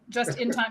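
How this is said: It flows as one everyday phrase. It sounds like the saying about good timing. "put the inflection on it"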